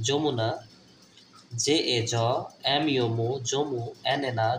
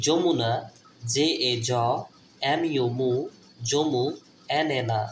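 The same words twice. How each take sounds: The two takes are said the same way.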